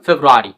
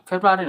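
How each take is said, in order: First: ফেব্রুয়ারি said loud as "febuari", r barely heard; correct pronunciation demo. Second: ফেব্রুয়ারি said higher as "febrari", r sounded; wrong pronunciation demo. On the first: Teacher modelling the right ফেব্রুয়ারি for the class. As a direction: say ফেব্রুয়ারি with the first r almost silent. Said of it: "আমরা বলি". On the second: Teacher showing the class the wrong ফেব্রুয়ারি. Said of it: "ফেব্রুয়ারি নয়". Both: Shown as a demonstration.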